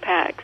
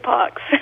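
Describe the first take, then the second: First: The vowel is front, like packs. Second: The vowel is open and back, like pox. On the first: This is the speaker's own everyday pronunciation. "So I say Pax" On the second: This is the proper Latin pronunciation. "it always sounds like a pox on you or something to me"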